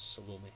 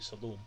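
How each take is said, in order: First: The final vowel is clearly pronounced. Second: The final vowel is silent, like Shalom. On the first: "so rather than say that, it's, it's Salome" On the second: "without the acute on there it could be Salome, which sounds a bit like the... Yiddish greeting, Shalom"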